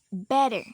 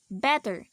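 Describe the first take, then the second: First: The middle t sounds like a soft d. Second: The middle t is a clear t sound. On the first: "The T becomes D" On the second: "We normally pronounce these words um something like this"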